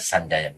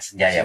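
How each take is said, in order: First: The first syllable has an 'a' vowel. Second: The first syllable has an 'e' vowel. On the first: The speaker calls it wrong. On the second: The speaker calls it right. "pakai E"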